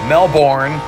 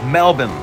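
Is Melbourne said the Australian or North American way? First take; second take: North American; Australian. First: It is said with a North American pronunciation. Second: It is said with an Australian pronunciation. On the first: The speaker calls it wrong. "Melbourne is how non-Australians would say it" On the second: The speaker calls it right. "It's Melbourne. I now know that"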